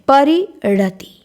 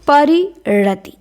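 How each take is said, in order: The two takes are said the same way.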